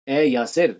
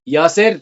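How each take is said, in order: First: Said in the usual way. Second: یاسر called louder with a rising end; teacher showing a name called out to a child; calling out. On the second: Shown as a demonstration. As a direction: call یاسر across the room, voice lifting. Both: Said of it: "تو آواز change کر کے پتہ چل جاتا ہے".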